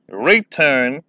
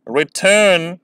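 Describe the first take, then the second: First: रिटर्न as a long, stressed री before टर्न; unnatural first-syllable stress. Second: रिटर्न with short रि, weight on टर्न; natural second-syllable stress. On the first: Teacher shows students how odd it sounds, first-syllable stress. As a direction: stretch and stress री at the start of रिटर्न. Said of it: "ये थोड़ा सा unnatural भी लगता है". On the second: Teacher names a second example word, natural stress. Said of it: "को मैं ऐसे बोलूँ". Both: Shown as a demonstration.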